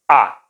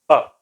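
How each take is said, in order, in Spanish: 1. La vocal es una a abierta, como la a del español. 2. La vocal es un sonido central y corto que sale del pecho. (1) "No es una A abierta como existe en español" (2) "Es una A como de una trombosis, un sonido que te viene del pecho"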